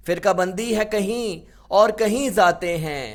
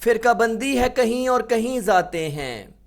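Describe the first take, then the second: No difference in how they are said.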